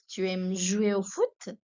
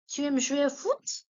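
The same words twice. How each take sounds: First: Said in the usual way. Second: Higher throughout, "Tu aimes jouer au foot?" with a rising end; lively teacher question; high model question. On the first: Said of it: "teacher repeats question". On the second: Shown as a demonstration. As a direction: ask it brightly to the class. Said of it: "teacher models question then repeats".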